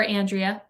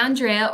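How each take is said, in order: First: Andrea said as AN-dree-uh; flat "a" as in "and" to start Andrea; alternative pronunciation of Andrea. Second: Andrea said as ahn-DRAY-uh; first pronunciation of Andrea. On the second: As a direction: open "ah" at the start of Andrea. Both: Shown as a demonstration. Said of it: "if I'm pronouncing your name wrong".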